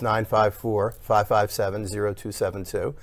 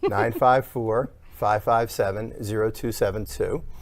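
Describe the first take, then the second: First: The number is said at normal speed. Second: The number is said slowly.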